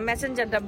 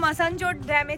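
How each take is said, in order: First: The name is said like the English word 'messenger'. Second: The name is said as 'Masanjor' with open vowels. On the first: The speaker calls it wrong. "আমি বারবার সবার থেকে যেটা শুনছি সেটা হচ্ছে ম্যাসেঞ্জার dam" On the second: The speaker calls it right. "Finally আমি প্রোনাউন্সিয়েশনটা ঠিক বললাম"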